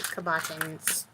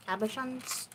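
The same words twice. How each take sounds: First: Cabochons said kab-uh-bah-tons, hard t; "cabochons" with a hard bah-tons ending; first pronunciation. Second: Cabochons with a soft shons ending, questioning rise; "Cabochons" as ab-uh-shons, unsure; second pronunciation. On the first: Crafter tries the word cabochons, hard t ending. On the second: Crafter second-guesses the word Cabochons, soft shons ending. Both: Shown as a demonstration. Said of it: "What was the second pronunciation?".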